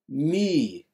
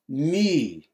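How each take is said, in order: First: The vowel is a French-like rounded u. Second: The vowel is a French-like rounded u.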